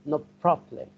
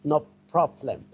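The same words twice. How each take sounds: First: The two words run together like one word. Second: The two words run together like one word.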